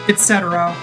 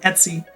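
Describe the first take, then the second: First: The word is said with four syllables. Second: The word is said with two syllables. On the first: "Usually you get lib and et cetera" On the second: "I pronounce it Etsy"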